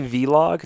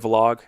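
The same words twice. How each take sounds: First: The V is said as a separate letter. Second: The V is blended into one syllable. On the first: It follows the older way of writing the word. "I say vlog just because back in the day, there was the V and then the slash L O G" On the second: It follows how people say it now. "now people are just bunching it together"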